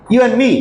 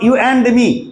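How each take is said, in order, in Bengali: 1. 'and' শব্দটি 'n'-এ ছোট করে বলা হয়। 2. 'and' শব্দটি পুরোটা বলা হয়। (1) "এটা এন উচ্চারণ হবে" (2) "নট"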